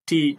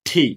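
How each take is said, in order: First: The t sound has no strong breath puff. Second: The t sound has a strong breath puff. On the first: The speaker calls it wrong. "আমরা অনেকে বলি টি" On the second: The speaker calls it right. "এটার সঠিক উচ্চারণ হচ্ছে ঠি"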